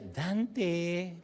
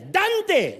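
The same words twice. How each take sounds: First: The name is called in a sweet, pleased tone. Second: The name is called in an angry, scolding tone.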